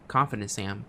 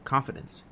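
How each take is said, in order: First: Said in the usual way. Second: Breathy whispered self-reminder. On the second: Retold or imitated. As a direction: whisper it to yourself. Telling herself at night.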